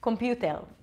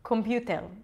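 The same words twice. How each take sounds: First: It is said with an Israeli accent. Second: It is said with an Israeli accent.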